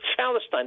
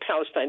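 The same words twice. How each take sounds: First: It is said imitating an Arabic speaker's P. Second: It is said with a plain English P.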